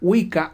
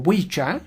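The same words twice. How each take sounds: First: It is said with the modern pronunciation. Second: It is said with the old pronunciation.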